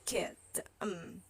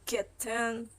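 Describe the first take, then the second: First: The middle consonant is a glottal stop. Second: The middle consonant is a clear t sound. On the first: "with the glottal stop" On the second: "Some people say kitten"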